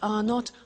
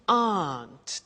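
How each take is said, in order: First: It is said as two separate full words. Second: It is said as one contracted word. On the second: "to contract those, when we speak, we say"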